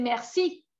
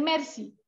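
First: Merci as mer-SI, rising at the end; last-syllable stress. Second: Merci as MER-si, falling at the end; first-syllable stress. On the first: Teacher contrasting French with Catalan, merci stressed at the end. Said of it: "y no dicen merci". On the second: Teacher showing the Catalan word, merci stressed on first syllable. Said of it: "como el acento en la primera sílaba". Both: Shown as a demonstration.

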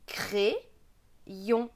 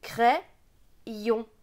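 First: "crayon" with a closed é, cré-yon; regional pronunciation. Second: "crayon" with an open è, crè-yon; Bocher method pronunciation. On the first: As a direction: say "crayon" as cré-yon, syllables set apart. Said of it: "Avec l'accent de ma région". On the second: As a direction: say "crayon" as crè-yon, syllables set apart. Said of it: "Pour Baucheur, ce sera". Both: Shown as a demonstration.

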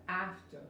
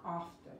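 First: "After" with a short English A, as in cat; teacher models "After" for students, short English A. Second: "after" with a broad, open "ah" vowel; wrong broad A. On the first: Teacher showing learners the right vowel, short A in "After". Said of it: "es la A corta". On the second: Teacher showing learners what to avoid, broad A in "after". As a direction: mispronounce "after" as "ahfter", with a broad A. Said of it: "not after". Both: Shown as a demonstration.

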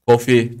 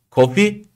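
First: Said in the usual way. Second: "Coffee" with a high rising tune. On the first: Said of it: "değil". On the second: Shown as a demonstration. Teacher showing students the right intonation, rising "Coffee". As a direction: lift "Coffee" up at the end.

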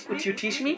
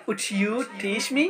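First: Said in the usual way. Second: Very slow, in a different voice; slow it right down for learners; slow model phrase. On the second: Shown as a demonstration. Teacher modelling a request very slowly.

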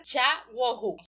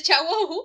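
First: Said in the usual way. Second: The name said higher and louder; excited. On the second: Retold or imitated. Father proudly saying the new baby's name, excited and loud. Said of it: "Y en este momento dice".

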